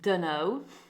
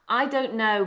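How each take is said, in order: First: The words run together into one reduced word. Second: All three words are said fully and separately.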